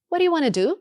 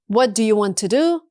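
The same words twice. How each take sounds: First: The words are blended and reduced together. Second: Each word is pronounced fully and separately. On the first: The speaker calls it right. "blend them together" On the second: The speaker calls it wrong. "Instead of saying each word separately"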